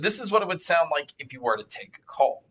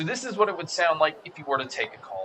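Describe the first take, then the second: First: The voice is heard without background crowd noise. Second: The voice is heard with crowd noise behind it.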